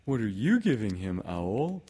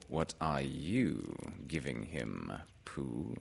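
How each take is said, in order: First: Lively storybook bear question; animated character voice, quicker and lifted; Pooh. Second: Low, soft, slow bird voice; unhurried, lowered storybook character; Owl. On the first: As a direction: ask eagerly in a little bear's voice. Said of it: "said Pooh". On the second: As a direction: hand the question back ponderously. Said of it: "said Owl". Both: Acted.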